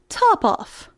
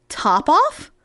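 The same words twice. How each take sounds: First: Coolly stated, falling at the end. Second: Questioning cry, sharply rising at the end; astonished cry. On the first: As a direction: answer as the cat, quite unbothered. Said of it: "said the cat quite coolly". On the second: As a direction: echo it as a startled mouse's question. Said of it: "cried the mouse". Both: A narrator's reading.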